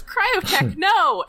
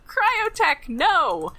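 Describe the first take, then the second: First: High, loud mock plea in Sue Blue's voice. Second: Mock cry. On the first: Gladria begging Cryotech to stop, high pleading cry. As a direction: wail his name like a cartoon heroine. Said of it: "imagine that in a Sue Blue voice". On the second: Gladria crying out to Cryotech.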